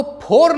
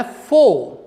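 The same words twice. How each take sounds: First: फोर with aspirated P and sounded R; फोर in Indian pronunciation; wrong pronunciation. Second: फो with F and silent R; फो with a long open vowel, no R; correct pronunciation. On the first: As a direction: say फोर with a puffed P and a clear final R. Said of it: "आपको फोर नहीं बोलना है". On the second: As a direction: say फो, dropping the final R. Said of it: "आपको बोलना है फो". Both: Shown as a demonstration.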